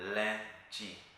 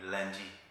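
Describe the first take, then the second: First: The word is said slowly and carefully. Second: The word is said quickly.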